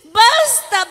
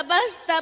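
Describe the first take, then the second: First: A louder, sharp basta to stop them; firm basta. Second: A softer, giving-up basta; fading basta. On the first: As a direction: call out basta to break it up. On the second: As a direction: let basta die away, worn out. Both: Acted. Pleading to stop a fight.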